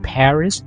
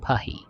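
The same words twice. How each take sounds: First: The name is said with an English pronunciation. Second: The name is said with a French pronunciation. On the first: "you would say it is in Paris" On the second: "I just used the French pronunciation"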